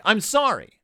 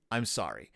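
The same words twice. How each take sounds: First: "sorry" pitched high and louder; emphatic apology. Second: Low, soft "sorry"; subdued apology. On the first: Host demonstrates the phrase "sorry", emphatic. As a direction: punch out "sorry" with a high fall. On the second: Host repeats the phrase "sorry", subdued. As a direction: drop "sorry" right down, almost to yourself. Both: Shown as a demonstration.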